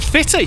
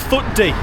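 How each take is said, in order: First: The name is said as two syllables, 'fitty'. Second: The name is said as two syllables, 'foot dee'. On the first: This is how the local people say it. "the local Scots call it Fitty" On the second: This is how an English visitor says it. "That's how you pronounce it if you're an Englishman like me"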